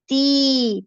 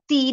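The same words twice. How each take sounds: First: The vowel is stretched out long. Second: The vowel is clipped short and rushed. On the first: The speaker calls it right. "दो हरकत जितना खींचना है" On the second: The speaker calls it wrong. "जल्दी नहीं करना, ती नहीं पढ़ना"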